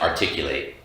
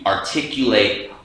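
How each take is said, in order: First: The syllables run together in ordinary speech. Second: Every syllable is pronounced clearly and separately. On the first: "instead of articulate" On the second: "You articulate the way"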